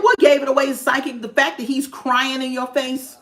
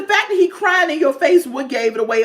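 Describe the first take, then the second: First: Mock the psychic for stating the obvious; sarcastic retort. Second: Higher and louder, indignant sarcasm; louder sarcastic retort. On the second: Retold or imitated. Viewer repeating her jab at the psychic, higher and louder. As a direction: really let the psychic have it.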